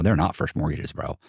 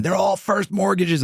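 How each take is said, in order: First: Said in the usual way. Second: High-pitched imitation of indignant yelling; drawn-out, high mock protest; mock screaming. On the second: Bank fraud investigator insisting on his claim, mock screaming. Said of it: "Guy from Wachovia screaming".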